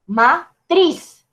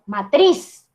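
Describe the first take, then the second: First: "matriz" with the TRIZ lifted and leaned on; teacher shows "maTRIZ" stress; stress on last syllable. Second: Said in the usual way. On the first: Shown as a demonstration. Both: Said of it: "Ahí ese golpe de voz, en la última sílaba".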